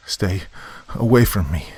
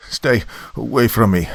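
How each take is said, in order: First: Sobbing. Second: Higher, louder frightened warning; shaky warning. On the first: Commander begging Zudov to keep back, sobbing. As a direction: plead brokenly, as if sobbing. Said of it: "I sobbed once again". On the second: Warning Zudov off down the mouthpiece, shaky voice. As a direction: warn them off in a shaky voice. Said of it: "I warned, my voice shaky". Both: A narrator's reading.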